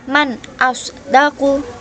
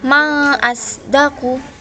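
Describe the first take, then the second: First: The n of the first word is clearly pronounced. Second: The n of the first word is left out. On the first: The speaker calls it right. "Jadi dibaca man" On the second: The speaker calls it wrong. "bukan ma asdaku, bukan begitu"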